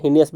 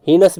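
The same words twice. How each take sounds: First: Heinous as "hee-ni-us", with a middle "i"; three-syllable pronunciation. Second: Heinous as "hee-nus", no middle vowel; two-syllable pronunciation. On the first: (heinous को "हीनियस" बोलें) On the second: (heinous को "हीनस" बोलें) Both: Shown as a demonstration. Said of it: "heinous भी पढ़ते हैं".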